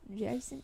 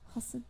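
First: The name begins with a J sound. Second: The name begins with an H sound. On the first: The speaker calls it wrong. "People always say Jason" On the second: The speaker calls it right. "If you say it correctly, it's Hoson. Like hoisin sauce"

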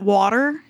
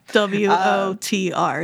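First: The letters are said as one word. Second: Each letter is said separately. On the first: It is an acronym. "So if you called it water, that would be the other word that is acronym" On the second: It is an initialism. "It's an initialism"

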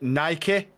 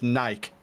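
First: It is said with an American pronunciation. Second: It is said with a British pronunciation. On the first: "you guys call it Nike" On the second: "over here, it's just Nike"

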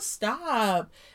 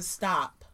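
First: It is said softly and playfully, not seriously. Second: It is said firmly and seriously, without softening. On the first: The request is not really meant. The speaker calls it wrong. "that sort of tone" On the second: The request is meant seriously. The speaker calls it right. "comes off very differently than stop"

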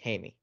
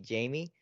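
First: The name is pronounced the Spanish way. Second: The name is pronounced the English way. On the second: "if you pronounce it in English, it'd be Jamie"

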